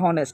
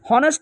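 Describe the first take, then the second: First: The word starts directly with a vowel sound. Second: The word starts with an audible h sound. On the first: The speaker calls it right. "বলতে হবে হনেস্ট" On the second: The speaker calls it wrong. "হনেস্ট উচ্চারণ করা যাবে না"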